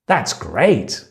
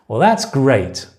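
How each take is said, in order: First: "great" said with a lively, pleased swing; really good intonation. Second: Sarcastic "great", falling at the end; really bad intonation. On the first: Teacher showing intonation to learners, "great" sincerely pleased. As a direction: make "That's great" sound like good news. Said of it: "it's really good or it's really bad". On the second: Teacher showing intonation to learners, "great" said sarcastically. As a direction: make "great" mean it's really bad. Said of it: "or it's really bad". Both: Shown as a demonstration.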